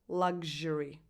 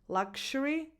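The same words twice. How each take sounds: First: The x has the sound in 'luxurious'. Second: The x has the sound in 'complexion'. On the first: "it's the sound that you have in the adjective luxurious" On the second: "So it can be luxury or luxury"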